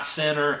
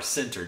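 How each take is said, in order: First: The word is said with a Southern drawl. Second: The word is said carefully and clearly. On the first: The speaker calls it wrong. "Not center, I know I got that southern draw" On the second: The speaker calls it right. "like the position on a football field, C-E-N-T-E-R"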